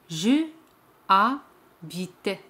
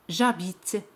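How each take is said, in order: First: The vowel of je is pronounced separately. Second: The vowel of je is dropped entirely. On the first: The speaker calls it wrong. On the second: The speaker calls it right.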